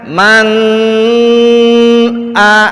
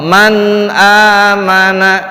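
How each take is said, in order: First: The nun sound is held and lengthened. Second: The nun sound is short and clear. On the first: The speaker calls it wrong. "Kalau dipanjangkan" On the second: The speaker calls it right.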